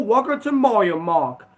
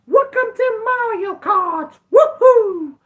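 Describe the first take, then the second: First: Said in the usual way. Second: Very high, slow falsetto cheer; high-pitched, drawn-out whooping impression; game catchphrase impression. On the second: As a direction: squeal it like an excited cartoon game character. Mimics the game's catchphrase as joke.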